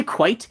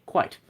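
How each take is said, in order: First: Said in the usual way. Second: Clipped-off British "quite", said softly; British accent. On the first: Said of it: "only when you have the accent". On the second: Shown as a demonstration. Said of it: "say it with a British accent".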